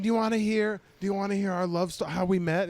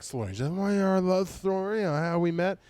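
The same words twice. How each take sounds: First: A hint of an eager drunk woman, higher; mock drunk heckler. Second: High, slurred mock drunk woman; slurring drunk heckler. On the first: Drunk woman offering her love story, mock eagerness. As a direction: lightly imitate an insistent heckler. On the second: Drunk woman offering her love story, slurred insistence. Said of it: "I'm saying that she's like".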